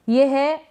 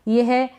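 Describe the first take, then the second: No difference in how they are said.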